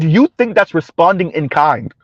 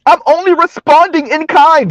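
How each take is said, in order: First: Said in the usual way. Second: High-pitched mimicked excuse; mock protest. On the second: Host mimicking women defending their rhetoric, mock protest. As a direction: imitate an indignant self-defence, pitched up.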